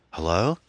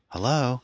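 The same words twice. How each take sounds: First: "Hello" with a rising end; questioning phone greeting. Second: "Hello" pitched much higher, falling at the end; repeated phone greeting. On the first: Anne picking up the wall phone, questioning hello. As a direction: answer with an asking lift on "Hello". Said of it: "went over to the wall phone". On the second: Anne repeating herself to a silent caller, high insistent hello. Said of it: "Anne repeated". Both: A narrator's reading.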